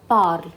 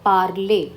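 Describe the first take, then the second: First: Parle as one syllable, "parl"; silent final E. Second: Parler as two syllables, "par-lay"; final E accent aigu. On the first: Teacher reading P A R L E, parle said "parl". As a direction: end parle on the l, no vowel after. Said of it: "The sound is parle". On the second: Teacher showing the added accent, Parler said "par-lay". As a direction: end Parler on a clear "ay", silent r. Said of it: "now the sound would be". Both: Shown as a demonstration.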